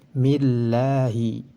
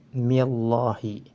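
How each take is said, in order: First: The L sound is light and thin. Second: The L sound is heavy and thick. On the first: The speaker calls it right. "harus dibaca tipis" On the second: The speaker calls it wrong. "tidak boleh dibaca"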